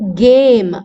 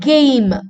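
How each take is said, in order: First: The vowel is a single pure sound. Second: The vowel glides as a diphthong.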